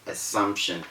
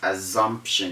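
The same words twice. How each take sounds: First: The double S is a hissing S sound. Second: The double S is a buzzing Z sound. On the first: The speaker calls it right. "instead of assumption" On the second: The speaker calls it wrong. "People say as assumption"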